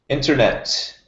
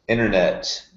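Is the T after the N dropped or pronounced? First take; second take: pronounced; dropped. First: The T after the N is pronounced. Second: The T after the N is dropped.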